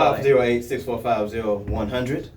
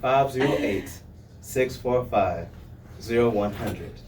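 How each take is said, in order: First: The number is said fast. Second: The number is said slowly.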